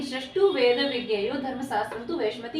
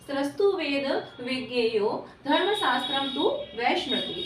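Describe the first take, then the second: First: Said in the usual way. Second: Slow, measured shloka recitation; verse recitation. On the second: Real, not acted. Teacher quoting a shloka to students, slow recitation. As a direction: recite it word by word with drawn-out syllables.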